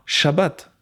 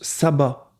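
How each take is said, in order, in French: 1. Le mot commence par un son sh. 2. Le mot commence par un son s simple. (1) "comme cela se dit en hébreu" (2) "ils le prononcent sabbat"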